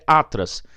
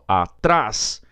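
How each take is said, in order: First: The stress is on the first syllable. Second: The stress is on the last syllable. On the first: "do jeito que ela veio é atras" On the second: "Então agora ficou certo"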